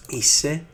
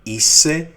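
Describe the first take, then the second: First: "Είσαι" said a bit higher with a rise; "Είσαι" again, less forceful; repeated model word. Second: "είσαι" said higher and louder with a rise; "είσαι" called out with a rising tune; emphatic model word. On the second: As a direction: punch "είσαι" up high for the class. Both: Shown as a demonstration. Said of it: "we will say".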